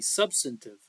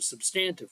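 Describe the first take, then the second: First: It is said in a standard, general way. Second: It is said in a Southern regional way.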